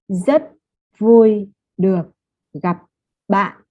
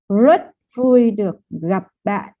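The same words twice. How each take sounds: First: The first word begins with a Z-like sound. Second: The first word begins with an English R. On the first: "I'm hearing a Z sound from zut" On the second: "if you use the American uh, R"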